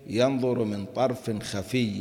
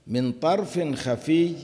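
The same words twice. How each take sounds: First: Said in the usual way. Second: Higher, slow chanted phrase من طرف خفي; verse recitation. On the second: Shown as a demonstration. Teacher quoting the phrase from the verse, chanted slowly.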